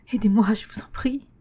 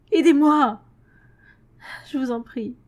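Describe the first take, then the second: First: Breathless whispered begging; whispered plea. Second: High, loud cry for help; desperate plea. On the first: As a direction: beg in a frightened whisper. Xavier smeekt fluisterend. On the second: Xavier smeekt wanhopig. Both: A narrator's reading.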